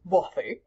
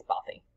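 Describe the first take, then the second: First: Mock-posh British pronunciation of "Bothy"; poncey British accent. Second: Said in the usual way. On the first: Shown as a demonstration. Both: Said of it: "needed to do a Ponzi accent".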